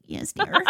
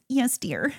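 First: Much higher, nasal Yes, dear. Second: Nasal, whiny Yes, dear. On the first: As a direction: squeeze it high through the nose. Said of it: "the nasally". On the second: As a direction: put on a nasal whine. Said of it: "you have to say it in, like, the nasally". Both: Retold or imitated.

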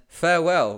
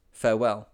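First: High loud farewell; parting hail to the doomed crew; called farewell. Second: Said in the usual way. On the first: A narrator's reading. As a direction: call goodbye across the water. Parting hail across water.

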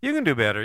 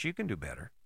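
First: Firm self-pep talk. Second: Quiet, low murmur to himself; soft self-reminder. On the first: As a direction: say it like you mean it this time. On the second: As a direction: say it softly under your breath. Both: Shown as a demonstration. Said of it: "I keep reminding myself".

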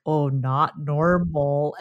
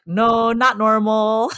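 First: Slow, low, drawn-out not normal. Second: Slow, stretched No, not normal with a rise on not; drawled not normal, rising on not; drawn-out not normal. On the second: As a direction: lean into not and draw the words out. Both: Shown as a demonstration. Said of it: "that's how we say it".

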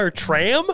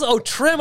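First: "tram" said with a flat open "a" like train car; questioning "tram" with a rising tune; misheard word. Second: "trim" said with a short "i" as in this; realizing "trim" with a rising tune; corrected word. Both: Real, not acted. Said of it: "I thought he said her tram".

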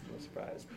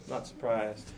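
First: Whispered repeat of "Not surprised". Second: Quiet aside. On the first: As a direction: breathe it out with no voice. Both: Shown as a demonstration.

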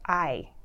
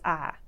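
First: Said in the usual way. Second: "ah" as the Southern form of I; Southern monophthong I. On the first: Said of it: "nothing inherently smart about". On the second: Shown as a demonstration. Linguist contrasting vowel sounds, "ah" with the glide dropped. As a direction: say "ah", a long I with no glide. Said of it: "But when a Southerner says".

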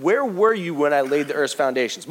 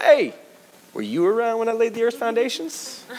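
First: Said in the usual way. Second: High, mocking challenge; a playful sarcastic jab at Job; sarcastic God. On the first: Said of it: "let's offer up some perspective". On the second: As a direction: needle him with a teasing question. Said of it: "we get sarcastic God".

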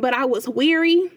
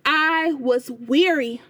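First: Said in the usual way. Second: "I was weary" drawn out slowly, leaning on "weary"; slow down and let "weary" land; weighty repeat of "I was weary"; slow emphatic repeat. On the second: Real, not acted. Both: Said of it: "I need y'all to hear me".

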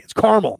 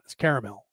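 First: Caramel said CAR-mel; caramel with the middle vowel dropped; two-syllable caramel. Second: Caramel said CARE-a-mel; caramel in three syllables, soft and low. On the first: Retold or imitated. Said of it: "People get mad at me". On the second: Shown as a demonstration. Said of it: "I say caramel".

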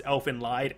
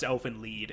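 First: "Elfen Lied" with Lied said like "lied"; "Elfen Lied", long i in Lied; spelling pronunciation. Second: "Elfen Lied" with Lied said like "leed"; "Elfen Lied", long ee in Lied; show's pronunciation. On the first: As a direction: say the Lied in "Elfen Lied" to rhyme with ride. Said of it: "typed out as". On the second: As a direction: say the Lied in "Elfen Lied" to rhyme with need. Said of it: "it's pronounced Elfen Lied in the show". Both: Shown as a demonstration.

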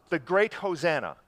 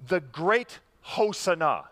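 First: Hosanna said as ho-ZAN-uh; English pronunciation. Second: Hosanna slowly said as ho-sah-NAH; Hebrew pronunciation. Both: Shown as a demonstration. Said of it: "or as we say it".

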